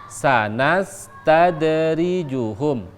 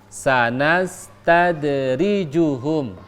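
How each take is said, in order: The two takes are said the same way.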